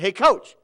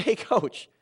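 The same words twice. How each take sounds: First: Quick, loud call to the coach; raised-voice hail, rising at the end. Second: Calling him back. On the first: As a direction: call him over urgently. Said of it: "quickly called our head coach over". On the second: Firmly calls angry coach back. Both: Retold or imitated.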